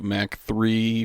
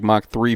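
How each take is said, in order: First: Mach said like "Mack"; mispronounced Mach. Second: Mach said like "mock"; corrected pronunciation. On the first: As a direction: say Mach with the short a of Big Mac. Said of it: "it's not a Big Mac". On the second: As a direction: say Mach with an open "ah". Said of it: "Did I say Mach?". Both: Real, not acted.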